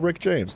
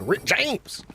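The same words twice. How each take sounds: First: The name is said in a plain, offhand way. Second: The name is said in a loud, emphatic way. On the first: The speaker calls it wrong. "You can't just say like, oh" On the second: The speaker calls it right. "it's got to be like"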